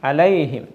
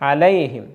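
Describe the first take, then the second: Both takes have the same delivery.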